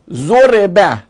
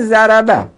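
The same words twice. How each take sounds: First: «ضربه» said zo-re-ba, short "e" after the r; kasra on R. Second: «ضربه» said za-ra-ba, every syllable with a short "a"; fatha vowels. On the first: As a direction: pronounce «ضربه» as zo-RE-ba, loudly. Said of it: "خب، اون که ا چیه؟". («ضربه» با کسرهٔ ر: ضُرِبَ) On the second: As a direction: pronounce «ضربه» as za-ra-ba, raised and loud. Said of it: "این ز، ا". («ضربه» با فتحه: ضَرَبَ) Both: Shown as a demonstration.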